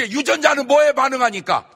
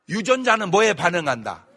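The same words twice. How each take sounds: First: Much higher and louder, shouting it out; loud question. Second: Said in the usual way. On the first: Shown as a demonstration. Preacher shouts the question to the congregation.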